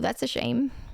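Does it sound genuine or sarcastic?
sarcastic. It sounds mocking and insincere.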